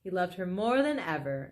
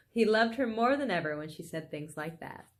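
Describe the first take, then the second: First: Said in the usual way. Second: Chuckling as you repeat the line; amused reread. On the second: A narrator's reading. Reader repeating the line for the listeners, amused and laughing. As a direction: read through a laugh, leaning on more.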